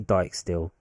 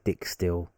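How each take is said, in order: First: The first syllable rhymes with 'like'. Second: The first syllable rhymes with 'sick'. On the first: The speaker calls it right. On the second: The speaker calls it wrong. "Don't say Dick Still"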